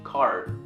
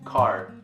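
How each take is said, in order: First: The word ends with an R-like sound. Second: The same.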